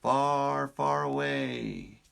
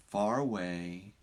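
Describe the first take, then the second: First: Slow, dreamy storybook far away; storybook phrase. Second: Said in the usual way. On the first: Shown as a demonstration. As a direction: stretch it like a fairy tale. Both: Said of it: "someone in the world is saying".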